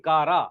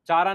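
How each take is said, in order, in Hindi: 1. यह शब्द 'k' ध्वनि से शुरू होता है। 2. यह शब्द 'ch' ध्वनि से शुरू होता है। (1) "नहीं कारा" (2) "चारा नहीं"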